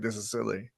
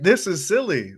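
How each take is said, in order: First: It is said in a serious, dismissive tone. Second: It is said in an amused, playful tone.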